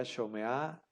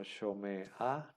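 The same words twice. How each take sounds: First: SHOMEA with the A gliding straight on from the E; patak furtivo. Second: SHOMEA with the final A as its own separate syllable after the consonant; lectura no furtiva. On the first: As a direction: say shomea joined up, sho-me-a, vowel before the mute consonant. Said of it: "y el otro sería shomea". (shomea con la A furtiva unida a la E) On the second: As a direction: say shomea split, sho-me, then ha. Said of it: "si no fuera furtivo ... lo leeríamos como". (shomea separando la A final, sho-me-ha) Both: Shown as a demonstration.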